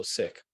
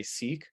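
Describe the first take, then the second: First: Sikh like "sick", ending on a hard H; correct Sikh pronunciation. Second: Sikh said like the word "seek"; British pronunciation of Sikh. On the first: Clarifying the faith's name for the group, Sikh pronounced "sick" with final H. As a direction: say Sikh with short i and breath after the K. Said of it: "almost pronounced like the word sick". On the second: Showing how some people say it, Sikh pronounced "seek" with long ee. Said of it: "like, the British pronunciation". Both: Shown as a demonstration.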